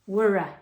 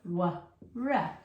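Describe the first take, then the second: First: The two sounds are joined without a break. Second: The two sounds are said separately with a break. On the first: "I'm just putting them together" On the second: "you can go wa, ra"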